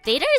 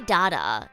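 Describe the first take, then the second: First: The word is said with an American pronunciation. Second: The word is said with an Australian pronunciation. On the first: "Data is the American way" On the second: "We say data in, in Australia"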